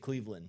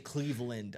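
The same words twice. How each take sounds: First: The last syllable is a reduced 'lin'. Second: The last syllable is a full 'land'. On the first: This is how the speaker actually says it. "I say Cleveland. ... I say it L I N" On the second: This is how the speaker does not say it. "I don't say Cleveland"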